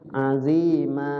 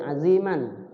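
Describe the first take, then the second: First: It ends with a lengthened a vowel. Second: It ends with a short a and n. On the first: This is how it is read when stopping there. "jadi panjang, jadi mat" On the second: This is how it is read without stopping. "dibacanya pendek aziman"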